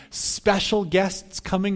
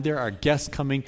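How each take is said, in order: First: Special drawn out slow and a bit higher; stress on special. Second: Said in the usual way. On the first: Shown as a demonstration. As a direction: lean hard and slow on special.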